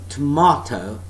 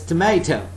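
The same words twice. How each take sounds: First: It is said in a British accent. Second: It is said in an American accent. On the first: "and that's British pronunciation" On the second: "That is Nam English, that's North American English"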